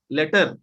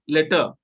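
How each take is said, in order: First: "letter" with a clear R at the end; sounded final R. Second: "letter" ending in an open "uh"; silent final R. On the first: Teacher showing the contrast, "letter" with R sounded. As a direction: pronounce the R ending "letter". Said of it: "R is accepted". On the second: Teacher modelling for students, "letter" without final R. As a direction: leave the last R off "letter". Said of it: "is not pronounced". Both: Shown as a demonstration.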